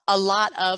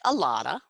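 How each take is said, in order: First: The word 'of' is said in full. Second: The word 'of' is reduced to a schwa.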